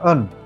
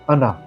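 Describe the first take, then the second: First: The word ends on a consonant sound. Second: The word ends with an added vowel sound. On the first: This is the original pronunciation. "In Sanskrit we call an" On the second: This is the English form. "in English we add a"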